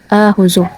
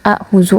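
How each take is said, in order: First: It opens with one long drawn-out first vowel. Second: It opens with two glottal catches and a short vowel. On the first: The speaker calls it right. "dihilangkan hamzah pertamanya dan digantikan dengan mad badal" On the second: The speaker calls it wrong. "bukan dibaca dengan ahuzu"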